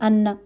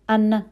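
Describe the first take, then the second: The two takes are said the same way.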